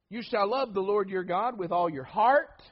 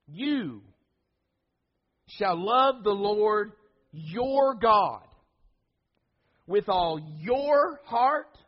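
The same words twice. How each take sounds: First: The emphasis falls on the word heart. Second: The emphasis falls on the words you and your. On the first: "we put the emphasis here" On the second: "we put the emphasis on the word you and your"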